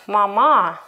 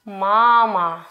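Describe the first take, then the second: First: MaMA, louder long final syllable; stress on second syllable. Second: MAma, long first syllable; stress on first syllable. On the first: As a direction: move the weight to the end of mama. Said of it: "not mama". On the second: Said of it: "Which syllable is stressed? The first one". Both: Shown as a demonstration.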